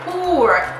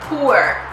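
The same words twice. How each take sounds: First: The vowel goes straight to r without uh. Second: The vowel glides through uh before r. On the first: The speaker calls it wrong. "You don't say poor" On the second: The speaker calls it right. "You say poo, uh, er, poor"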